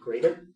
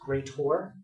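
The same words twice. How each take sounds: First: The word ends with a plain 'er' sound. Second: The word ends with a clear 'or' sound. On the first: "instead of saying it like greater" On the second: "if you say it as greater, greater is an or"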